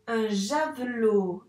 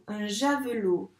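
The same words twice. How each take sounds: First: Slow blend. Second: Said in the usual way. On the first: Shown as a demonstration. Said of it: "blended slowly after sounding". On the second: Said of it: "repeated at normal pace".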